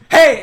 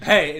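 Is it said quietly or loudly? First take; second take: loudly; quietly. First: It is said a little bit louder. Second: It is said at a normal, quieter volume.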